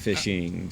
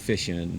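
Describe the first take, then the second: First: The ending is said as -ing with g. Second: The ending is said as -in without g. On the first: The speaker calls it right. "instead of" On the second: The speaker calls it wrong. "I don't pronounce my ings correctly. I just go fishing"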